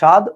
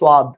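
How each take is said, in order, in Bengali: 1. প্রথম ব্যঞ্জনের পরে কোনো w ধ্বনি শোনা যায় না। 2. প্রথম ব্যঞ্জনের পরে একটি w ধ্বনি শোনা যায়। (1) "আমরা বলি" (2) "ওরা বলে"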